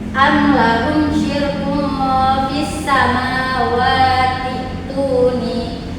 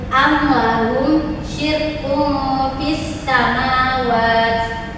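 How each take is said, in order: First: Samawati links straight into the next word without stopping. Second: The reading stops after samawat with no ending vowel. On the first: "berubah lagi jika dibaca lanjut" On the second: "dibaca seperti ini jika dibaca berhenti"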